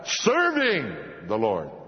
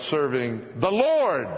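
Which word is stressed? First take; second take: serving; Lord. First: The stress falls on the word serving. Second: The stress falls on the word Lord. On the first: The focus is on the act of serving. The speaker calls it wrong. "It's not" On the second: The focus is on the one being served. The speaker calls it right.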